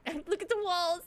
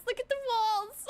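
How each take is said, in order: First: Laughing through look at the walls. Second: Higher and louder look at the walls; excited repeat. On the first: Laughing at herself for missing the walls, giggling. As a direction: giggle the words out. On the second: Pointing out the walls to the viewers, excited and higher. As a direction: exclaim it in delighted disbelief. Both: Real, not acted.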